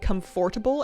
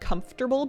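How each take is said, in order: First: The middle 'fort' syllable is fully pronounced. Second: The middle syllable is reduced to 'comf-ta-ble'. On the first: The speaker calls it wrong. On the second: The speaker calls it right.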